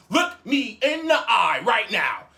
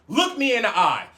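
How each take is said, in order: First: Each word slow and hard-hit; insist, spacing out the command; acted-out slow, forceful demand; stern slow order. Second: Firm retold command; stern order. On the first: Repeated order, slower and harder. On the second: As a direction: order them to face you. Acted stern order, first take.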